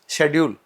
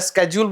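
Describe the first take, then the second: First: The word begins with an 'sh' sound. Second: The word begins with an 'sk' sound. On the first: Listeners understand it at once. "ये मैंने बोला, आपको समझ में आ गया।" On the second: Listeners have to stop and think what was said. "मैं स्केड्यूल बोलूंगा, एक बार आपको थोड़ा सोचना पड़ेगा"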